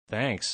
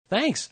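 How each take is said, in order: First: It is mumbled in a sarcastic tone. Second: It is shrieked in an excited tone.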